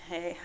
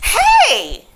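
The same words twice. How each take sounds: First: It is said with low, flat energy. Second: It is said with high, lively energy.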